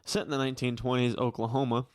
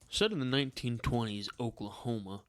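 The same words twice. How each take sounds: First: It is read in a plain, normal accent. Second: It is read in a put-on Southern accent. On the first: "How would Chris read it?" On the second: "What's the voice? ... Benoit Blanc?"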